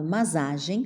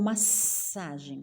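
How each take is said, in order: First: The middle consonant sounds like z. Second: The middle consonant sounds like s. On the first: "com um S só" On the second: "com dois S"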